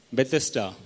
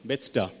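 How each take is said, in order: First: "Bethesda" in three syllables, be-TES-ta; settled pronunciation. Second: "Bethesda" squeezed into two syllables, BETS-da; trying a pronunciation. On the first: Preacher settling on the pool's name, "Bethesda" said as beh-TES-tah. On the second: Preacher trying out a Hebrew name, "Bethesda" said as BETS-tah. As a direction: say "Bethesda" as BETS-tah, middle vowel dropped. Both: Shown as a demonstration. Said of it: "how do you pronounce".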